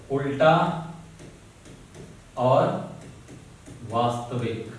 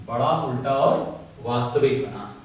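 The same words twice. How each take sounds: First: Each word set apart by long pauses; slow, spaced dictation to students. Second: Said in the usual way. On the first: Shown as a demonstration. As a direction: spell it out slowly so they can write.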